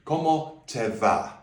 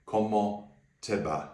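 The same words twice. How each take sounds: First: "va" with a hard English V; Cómo te va with a hard V, the wrong way. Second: "va" said like a soft B, halfway to V; Cómo te va with a soft B, slowly. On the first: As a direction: say "va" with a clear English V sound. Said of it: "So here's the wrong way". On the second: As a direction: say "va" with a gentle B. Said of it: "it should be said". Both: Shown as a demonstration.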